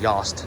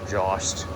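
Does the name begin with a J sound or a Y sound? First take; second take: Y sound; J sound. First: The name begins with a Y sound. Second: The name begins with a J sound. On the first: The speaker calls it right. "I know you pronounce it Yost" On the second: The speaker calls it wrong. "not Jost"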